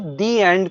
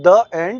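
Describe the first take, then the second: First: 'The' is said with a long 'thee' vowel. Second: 'The' is said with a short 'thuh' vowel. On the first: The speaker calls it right. "वो दी एंड कहा जाएगा" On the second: The speaker calls it wrong. "कभी भी movies का द end नहीं होता है"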